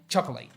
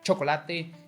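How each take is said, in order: First: The word is said with English pronunciation. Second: The word is said with Spanish pronunciation. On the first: "pronounce chocolate both in Spanish and English" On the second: "pronounce chocolate both in Spanish and English"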